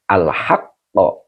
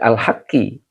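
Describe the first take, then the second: First: The word ends with an 'a' vowel. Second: The word ends with an 'i' vowel. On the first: The word is the object of the verb. The speaker calls it right. "Al-haqqo maf'ul bi yang dinasabkan dengan fathah" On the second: The word becomes the possessor in a genitive phrase. The speaker calls it wrong. "ini tidak boleh al-haqqi. Kalau al-haqqi jadi mudhof ilaih"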